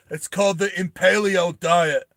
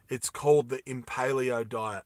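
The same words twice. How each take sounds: First: Higher, louder one-liner; acted punchline. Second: Said in the usual way. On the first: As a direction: deliver the killer punchline as the character. Character delivers punchline before killing.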